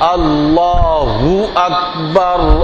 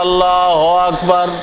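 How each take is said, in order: First: A rounded u follows Allah, lips nearly closing. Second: No rounded u follows Allah, lips stay apart. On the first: The speaker calls it right. "ঠোঁট মিলার কাছাকাছি হইতেছে" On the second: The speaker calls it wrong. "যদি না মেলে তাহলে হবে আল্লাহ আকবার"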